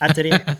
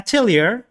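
First: It is said the French way, ending in -ay. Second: It is said the American way, ending in -leer. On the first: "ال pronunciation الصحيح مالها مفروض إنه يكون فرنسي" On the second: "الامريكان طبعا يقولونها اتيلير"

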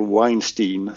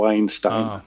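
First: The name ends with a 'steen' sound. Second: The name ends with a 'stine' sound. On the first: It names the Hollywood producer. The speaker calls it wrong. "man inte uttalar det Weinstein som den här Hollywood-våldtäktsmannen" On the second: It names the brothers. The speaker calls it right. "att man säger som Einstein"

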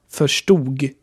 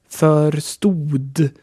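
First: The word ends with a g sound. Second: The word ends with a d sound. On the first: This is the everyday spoken form. "Ausgesprochen aber verstug" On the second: This follows the written form. "geschrieben wird es mit ein D"

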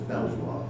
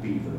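First: It sounds like 'bel-vwar', following the spelling. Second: It sounds like the word 'beaver'. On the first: This is the pronunciation people recognize. "so it has to be pronounced as Belvoir" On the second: This is the traditional correct pronunciation. "I know it should be pronounced Beaver"

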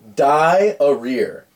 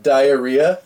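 First: The word ends with a 'rear' sound. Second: The word ends with a 'ree-uh' sound. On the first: The speaker calls it wrong. "This one's hilarious. Die-a-rear" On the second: The speaker calls it right. "Instead of diarrhea"

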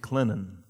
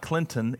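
First: The middle T sound is dropped or slurred. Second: The middle T sound is clearly pronounced. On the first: The speaker calls it right. "Slur the T. You don't say the T" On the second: The speaker calls it wrong. "it was not Clinton"

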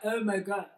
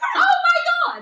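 First: It is said in a sad tone. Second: It is said in a cheerful tone.

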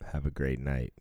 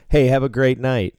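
First: It is said in a hostile tone. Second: It is said in a friendly tone.

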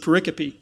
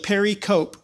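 First: The word ends with an 'ee' sound. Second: The word ends with a 'cope' sound. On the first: This is how others actually say it. The speaker calls it right. "until I heard somebody say pericope" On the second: This is how the spelling suggests saying it. The speaker calls it wrong. "if you write it down, it looks like pericope, because I pronounced it that way"

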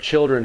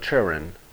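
First: The word is said in a general American way. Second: The word is said in a deep southern way. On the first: "for children" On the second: "she'll go children"

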